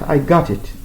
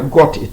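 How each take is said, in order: First: It is said in an American accent. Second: It is said in a British accent. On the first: The speaker calls it right. "ici aux États-Unis, on dit" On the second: The speaker calls it wrong. "C'est pas"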